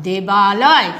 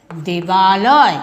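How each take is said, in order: First: Said in the usual way. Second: Debaloy, said very slowly with each sound stretched; drawn-out answer. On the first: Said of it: "দেব যুক্ত আলয় সমান কি হচ্ছে?". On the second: Shown as a demonstration. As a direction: stretch Debaloy out like a teacher spelling it for the class. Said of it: "কি হবে?". (শিক্ষকের মতো দেবালয় খুব ধীরে টেনে টেনে বলা)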